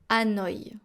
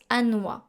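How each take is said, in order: First: The ending is said as two vowels, 'o-ee'. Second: The ending 'oi' is said as one 'wa' sound. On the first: This is how it sounds with the diaeresis. "avec le tréma, on prononce Hanoï" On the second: This is how it would sound without the diaeresis. "sinon on prononce Hanoï"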